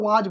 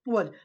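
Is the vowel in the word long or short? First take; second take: long; short. First: The vowel is long and full. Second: The vowel is short and weak. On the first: The speaker calls it wrong. "जो कि ये pronounce गलत है" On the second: The speaker calls it right. "इसको हम लोग वज बोलते हैं"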